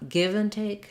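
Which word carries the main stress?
give. The main stress falls on give. The speaker calls it wrong. "it's not give and take"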